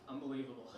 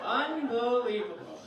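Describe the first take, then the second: First: Low, quiet seething mutter; fuming. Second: Slow, drawn-out exasperation; fuming out loud. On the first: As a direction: seethe under your breath. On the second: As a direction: stretch the word in angry disbelief. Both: Acted. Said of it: "he was fuming, I could tell".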